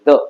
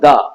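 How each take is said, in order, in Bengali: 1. স্বরবর্ণটি একটি ছোট 'uh' ধ্বনি। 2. স্বরবর্ণটি একটি দীর্ঘ 'ee' ধ্বনি। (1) "th should be pronunciated as the" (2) "not the"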